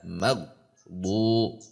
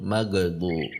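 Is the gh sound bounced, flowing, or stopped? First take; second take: stopped; bounced. First: The gh sound is pressed and stopped. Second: The gh sound bounces with a small rebound. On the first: "maghbu ditekan namanya, itu tidak" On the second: "ada yang memantul"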